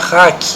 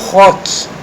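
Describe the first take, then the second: First: It has an English-style vowel, like hack. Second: It has a Portuguese-style vowel, like rock. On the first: "se pronuncia hack em inglês" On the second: "foneticamente falando, ou é, aportuguesado, significa rock"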